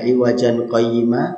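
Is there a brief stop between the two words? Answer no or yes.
no. The words run together with an added n sound. The speaker calls it wrong. "Jadi bukan"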